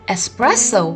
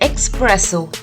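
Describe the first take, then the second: First: The first syllable has a plain s sound. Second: The first syllable has an x sound. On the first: The speaker calls it right. "but we call it espresso" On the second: The speaker calls it wrong. "We don't call it espresso. The spelling might have an X in it"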